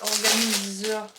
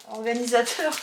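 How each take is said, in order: First: Organiseur said slowly as a slip; organiseur, the wrong word, drawn out. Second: Organisateur said as the correction; organisateur, correcting organiseur; correct word. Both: Real, not acted.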